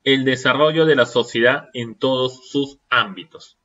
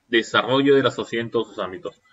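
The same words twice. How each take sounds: First: Said in the usual way. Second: Quick echo. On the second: Shown as a demonstration. Teacher to students, quickly echoing the phrase. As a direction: rattle it off again as an echo.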